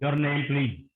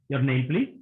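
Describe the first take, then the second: First: It is said in a commanding, harsh tone. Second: It is said in a polite, gentle tone. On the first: It is an order, like questioning a suspect. The speaker calls it wrong. "Commanding voice" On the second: It is a courteous request. The speaker calls it right. "These are polite questions"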